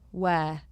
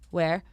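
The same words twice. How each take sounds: First: The final R sound is dropped. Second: The final R sound is pronounced. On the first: The speaker calls it right. "take out the R's ... you've got to just go where" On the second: The speaker calls it wrong. "where you would say like where"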